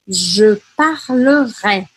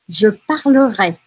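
First: It is said slowly, syllable by syllable. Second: It is said at a normal, fluent speed.

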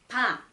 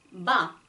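First: The b is released with more breath. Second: The b is released with little breath. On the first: "비읍을 발음하실 때는 바, 바" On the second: "러시아어 매 발음은 마, 마. 아주 약간의 차이죠"

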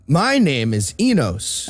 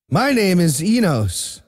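First: It is said in a put-on character voice. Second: It is said in a plain, natural voice.

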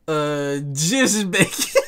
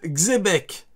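First: The name begins with the word dièse. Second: The name begins with a ks sound. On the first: "Donc le X, on le prononce dièse" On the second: "Petit A"

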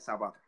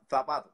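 First: It is said with a Cuban Spanish accent. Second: It is said with a Spain Spanish accent.

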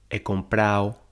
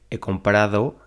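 First: The d sound in the ending is dropped. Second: The d sound in the ending is pronounced. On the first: The speaker calls it wrong. "Dicen he comprado" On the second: The speaker calls it right. "en lugar de"

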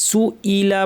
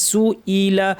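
The two takes are said the same way.

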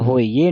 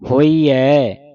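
First: The word ends in a plain 'e' vowel. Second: The word ends in an 'ai' vowel. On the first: The speaker calls it wrong. "ਹੋਈਏ ਨਹੀਂ ਪੜਨਾ" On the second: The speaker calls it right. "ਇਸ ਤਰ੍ਹਾਂ ਪੜਨਾ ਹੈ ਦਲਾਵਾਂ ਲਾ ਕੇ"

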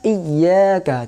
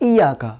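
First: The y sound is held and doubled. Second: The y sound is short and single. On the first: The speaker calls it right. "ইয়াকা নেই এই ইয়াকা" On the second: The speaker calls it wrong. "বিনা তাসদীদে পড়লে কেমনি পড়বো"

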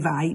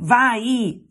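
First: The vowel is short and plain. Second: The vowel is stretched out long. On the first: "invece che vai" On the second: "faccio due i, allungava le vocali"

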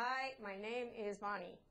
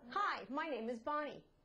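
First: The pitch stays level throughout. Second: The pitch rises and falls throughout. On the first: The speaker calls it wrong. "it's going to have the flat" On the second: The speaker calls it right. "Then you put in the words"

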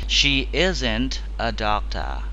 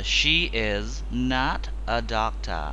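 First: The words is and not merge into one syllable. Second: The words is and not are said separately. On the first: "mình đọc là isn't" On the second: "Trong cái chữ is not"

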